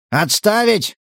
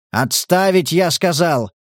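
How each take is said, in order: First: High, raised bark «Отставить!»; barked order. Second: «Отставить» said calmer, less barked. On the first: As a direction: snap out the command «Отставить!». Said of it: "рявкнул Кирка". (рявкнуть «Отставить!») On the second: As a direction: repeat «Отставить» more evenly. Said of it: "уже более спокойным тоном". (спокойнее «Отставить») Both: Acted.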